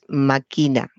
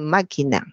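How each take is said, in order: First: The stress is on the second syllable. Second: The stress is on the first syllable. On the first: The speaker calls it right. "Sería una palabra llana" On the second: The speaker calls it wrong. "mucha gente dice máquina... convertir la palabra en esdrújula"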